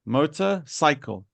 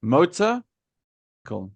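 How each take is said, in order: First: "Motorcycle" run together as one word, falling at the end; joined compound word. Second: "Motor" rising, long pause, then "cycle"; "Motor" up, wait, "cycle" down; two separate words. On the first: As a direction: join "Motorcycle" without a pause. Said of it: "it makes a new word". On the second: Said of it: "two words put together". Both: Shown as a demonstration.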